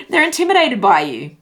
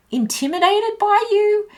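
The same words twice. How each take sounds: First: "intimidated by you" stated firmly, starting high and falling; "intimidated by you" louder, with a settled falling end; emphatic statement. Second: "intimidated by you" as an incredulous high-pitched question. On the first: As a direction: turn "intimidated by you" into a loud, sure statement. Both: Real, not acted. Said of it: "Question mark".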